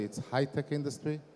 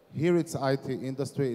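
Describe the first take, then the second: First: "high-tech" stressed as the other term; a contrasting emphasis on the Israeli term. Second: HERE and "I T" stressed for contrast; a pointed contrast with the Israeli term. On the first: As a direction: land on "high-tech" to answer "I T". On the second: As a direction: lean on "Here" to set it against Israel. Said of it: "In Israel, in the U S A, it's high-tech industry". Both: Shown as a demonstration.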